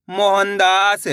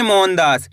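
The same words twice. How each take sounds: First: Mohandas drawn out, long आ in दास; joined-up demonstration. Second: Said in the usual way. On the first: Shown as a demonstration. Teacher blending the letters for learners, Mohandas drawn out. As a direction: stretch the whole of Mohandas. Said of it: "तो मिलके बन जाएगा". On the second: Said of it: "कैसे पढ़ेंगे".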